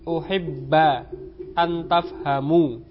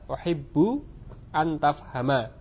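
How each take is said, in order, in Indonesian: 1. Kata pertama berakhir dengan a, kata kedua dengan u. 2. Kata pertama berakhir dengan u, kata kedua dengan a. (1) "uhibba dengan fathah, antafhamu dengan dhammah huruf akhirnya ... ini salah" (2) "jadi yang benar adalah uhibbu antafhama"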